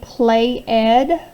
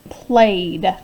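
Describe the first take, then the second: First: The ending is said as a separate syllable. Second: The ending is said as just a d. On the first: The speaker calls it wrong. "does it sound right when I say play ed? That doesn't sound right" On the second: The speaker calls it right. "So this word is just played"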